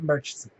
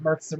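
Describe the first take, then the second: First: The middle sound is a soft ch. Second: The middle sound is a hard k. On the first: It marks someone from outside the area. The speaker calls it wrong. "Foreigners pronounce it" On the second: It marks someone born and raised locally. The speaker calls it right. "we pronounce it with the K as opposed to the H"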